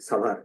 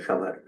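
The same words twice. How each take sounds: First: It is said with an English pronunciation. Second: It is said with a Bengali pronunciation. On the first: "style করে সাভারকে বলি সাভার, সাভারটা English উচ্চারণ" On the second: "Bangla উচ্চারণটা সাভার"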